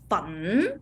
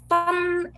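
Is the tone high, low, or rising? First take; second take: rising; high. First: The syllable is said with a rising pitch. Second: The syllable is said on a high level pitch. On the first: "is the raising tone" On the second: "is a high tone"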